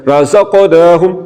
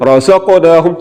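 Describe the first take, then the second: No difference in how they are said.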